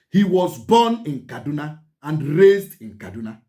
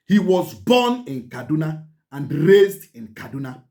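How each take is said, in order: Both takes have the same delivery.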